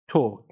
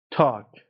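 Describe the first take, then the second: First: "توک" as British talk, long rounded aw. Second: "تاک" as American talk, long open ah. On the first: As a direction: round "توک" from the back of the throat. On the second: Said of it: "لهجهٔ آمریکایی". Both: Shown as a demonstration.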